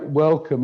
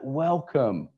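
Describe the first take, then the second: First: It is said flatly, as a mere thought. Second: It is said warmly, with real feeling.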